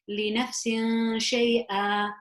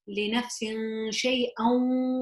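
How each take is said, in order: First: The last word ends on a plain vowel. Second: The last word ends with an n sound. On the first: The reciter stops after this word. "If I cho- chose to stop, then I would pronounce this as" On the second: The reciter continues into the next word. "if I chose to continue and I am allowed to, then I can say it as"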